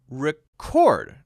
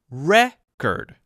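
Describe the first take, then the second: First: The stress is on the second syllable. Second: The stress is on the first syllable. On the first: It is a verb. "the second syllable is now stressed" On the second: It is a noun. "if it is a noun"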